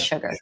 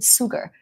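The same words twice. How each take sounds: First: The word begins with a sh sound. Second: The word begins with an s sound. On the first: The speaker calls it right. "It's with a sh sound" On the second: The speaker calls it wrong. "this word isn't sugar, isn't it? It isn't with an S"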